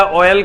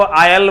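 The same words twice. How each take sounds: First: ऑयल opening on a rounded "o"; standard pronunciation. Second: आयल opening on "aa"; UP-style pronunciation. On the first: Shown as a demonstration. Teacher on how UP people talk, ऑयल with "o". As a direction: say "o-yal" for ऑयल. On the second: Retold or imitated. Teacher imitating UP speakers, आयल with "aa". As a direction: say "aa-yal" for आयल. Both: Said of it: "ऑयल को आयल बोलता है".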